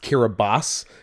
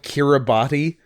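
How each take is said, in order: First: The 'ti' is said with an S sound. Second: The 'ti' is said with a T sound. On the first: This is how the name is actually pronounced. "is pronounced Kiribati? ... T I makes an S sound" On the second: This is how the name is spelled. "it's spelled Kiribati"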